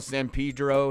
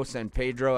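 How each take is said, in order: First: San Pedro with a long ee in Pedro; Pedro as PEE-dro. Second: San Pedro with an ay in Pedro; Pedro as PAY-dro. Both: Shown as a demonstration. Tries two pronunciations of name.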